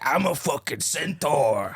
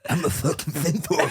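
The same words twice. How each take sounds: First: The impression is spoken with only a slight lisp. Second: The impression is spoken with a strong lisp. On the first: The speaker calls it wrong. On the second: The speaker calls it right.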